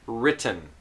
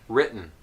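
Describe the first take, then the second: First: It is said in a careful, textbook way. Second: It is said in a relaxed, natural way. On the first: "here's how maybe you know these words" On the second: "This is how I would usually pronounce these words"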